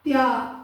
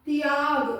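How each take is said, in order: First: The t joins the y in one cluster. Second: The t joins the y in one cluster.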